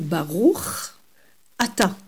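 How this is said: The two words are clearly separated. The speaker calls it right. "mais Baruch Ata. C'est deux mots bien distincts"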